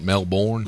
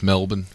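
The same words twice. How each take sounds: First: It is said the American way. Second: It is said the Australian way. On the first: The speaker calls it wrong. "and not Melbourne" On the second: The speaker calls it right. "we just need America to learn that it's Melbourne"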